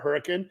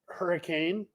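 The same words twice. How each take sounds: First: The name is said the local way. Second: The name is said the standard, general way. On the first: This is how people from the town name it. "if you're from Hurricane, you call it Hurricane" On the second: This is how outsiders name the town. "it's called Hurricane"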